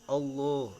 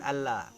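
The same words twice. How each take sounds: First: The L sound is thick and dark. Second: The L sound is thin and light. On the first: The speaker calls it right. "lam lamnya lam tebal" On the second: The speaker calls it wrong. "bukan lam tipis"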